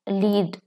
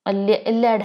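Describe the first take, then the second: First: The vowel is long, like 'leed'. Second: The vowel is short, like 'led'. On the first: The speaker calls it wrong. "मैं गलत उतनी देर से pronounce कर रही थी" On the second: The speaker calls it right. "ये लेड है"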